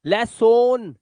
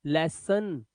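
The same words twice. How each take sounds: First: लेसोन slowly with a full o, les-son; the wrong way: लेसोन drawn out with a clear o; wrong o reading. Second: लेसन softly with a short uh, les-suhn; correct weak ending. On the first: Teacher mocks the wrong reading, slow लेसोन with a full o. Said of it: "नहीं". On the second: Teacher gives pupils the right लेसन, soft uhn ending. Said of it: "लेसोन नहीं". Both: Shown as a demonstration.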